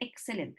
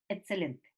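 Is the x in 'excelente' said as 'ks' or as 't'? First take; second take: ks; t. First: The x is said as a ks sound. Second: The x is said as a t sound. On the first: The speaker calls it right. "no dice excelente" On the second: The speaker calls it wrong. "dice excelente ... la K S como una T"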